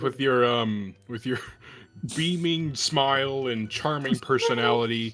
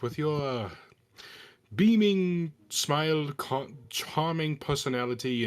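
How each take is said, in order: First: It is said in the speaker's normal voice. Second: It is said in a sarcastic character accent. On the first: "I'm not saying it in character" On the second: "I'm using the accent, but I'll say it in character"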